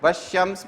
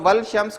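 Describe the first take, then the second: First: No L sound; it blends into sh. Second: An L sound is heard before shams. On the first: The speaker calls it right. "वशम्स पढ़ा जाता है वो" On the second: The speaker calls it wrong. "उसको वल शम्स कोई नहीं पढ़ता है"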